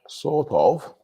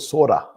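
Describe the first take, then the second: First: It is said as two separate full words. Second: It is run together as one reduced word. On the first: "the way of writing it" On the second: "I would say sorta sometimes"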